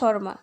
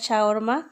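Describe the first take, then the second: First: It is said with two syllables, shor-ma. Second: It is said with three syllables, sha-war-ma. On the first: This is how it is said in English. "ইংলিশে হয়েছে শর্মা" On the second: This is how it is said in Arabic. "দুবাইতে বলে আরবি ভাষায় শাওয়ারমা"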